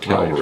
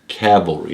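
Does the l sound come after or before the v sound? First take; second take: before; after. First: The l sound comes before the v sound. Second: The l sound comes after the v sound. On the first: It names the hill. The speaker calls it wrong. "not cavalry" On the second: It names soldiers on horseback. The speaker calls it right. "Got to make sure I'm saying cavalry"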